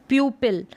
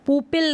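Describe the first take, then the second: First: प्यूपिल with a y glide, "pyoo-pil"; yoo pronunciation. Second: पुपिल with plain oo, no y glide; mispronunciation demo. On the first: Teacher correcting how pupil is read, yoo pronunciation. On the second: Teacher showing learners the wrong pupil, mispronunciation demo. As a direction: say पुपिल as "poo-pil". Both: Shown as a demonstration. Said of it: "अब इसको पुपिल नहीं पढ़ेंगे".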